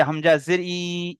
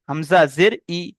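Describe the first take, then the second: First: Final "ই" dragged out long; wrongly stretched vowel. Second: "ই" kept short after "Hamza জের"; brief, unstretched "ই"; short final vowel. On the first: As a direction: hold the "ই" at the end of "Hamza জের ই". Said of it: "এটি পড়া ভুল হবে". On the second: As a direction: say the last "ই" briefly, without stretching it. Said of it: "এরকম বলতে হবে". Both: Shown as a demonstration.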